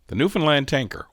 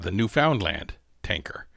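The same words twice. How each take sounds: First: Newfoundland is said in an Eastern Canadian accent. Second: Newfoundland is said in a general accent. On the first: "my Eastern Canadian accent" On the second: "if you don't have my Eastern Canadian accent"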